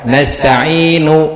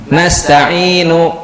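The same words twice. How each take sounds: First: The final vowel is clipped very short. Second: The final vowel is held a full beat. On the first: "Ini nunya dibaca tapi kadarnya kurang" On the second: "itu satu harokat"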